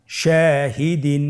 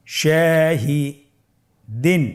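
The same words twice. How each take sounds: First: Shahdeen in one connected run with long vowels; measured, unbroken Shahdeen; whole word joined. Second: Shahdeen with a long pause before the last syllable; very slow, split Shahdeen; broken into pieces. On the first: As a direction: join Shahdeen slowly without stopping. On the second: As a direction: say Shahi, stop, then add দিন. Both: Shown as a demonstration. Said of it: "ভেঙে ভেঙে পড়ব".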